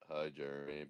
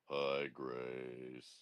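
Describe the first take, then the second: First: The greeting is said in an ordinary, natural voice. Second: The greeting is said in a put-on, older-sounding voice.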